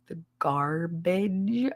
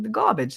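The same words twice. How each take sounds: First: "garbage" drawn out slowly with the R sounded; questioning over-enunciation. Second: Put-on "gah-bidge" in her accent, no R; thick regional accent. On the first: Retold or imitated. Connor puzzles over her word "garbage", slow questioning over-enunciation. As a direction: slowly query "garbage" as gar-bage, R pronounced. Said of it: "He was like". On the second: Woman insists to Connor she said it right, thick regional accent. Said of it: "That's what I said".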